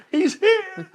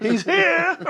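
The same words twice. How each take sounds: First: High, loud and laughing through it; laughing repeat. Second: High, loud call of he's here; excited shout. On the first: Retelling the neighbors' call, laughing hard. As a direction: laugh as you echo the call. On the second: Neighbors shouting that Rob has arrived, loud excited call. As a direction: shout it like the whole block knows. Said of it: "They say". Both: Retold or imitated.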